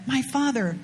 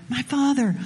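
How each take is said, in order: First: A hint of a humble servant, gently addressing; lightly voiced servant bowing to his master; respectful servant. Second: A hint of a humble servant, a little fuller and pleading; lightly voiced servant, leaning in to persuade; respectful servant. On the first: Servants respectfully address their master Naaman, mildly humble. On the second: Servants humbly plead with Naaman, a touch more earnest. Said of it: "you see how the servants approached those they serve?".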